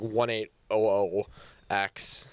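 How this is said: It is crisply enunciated in a put-on British accent.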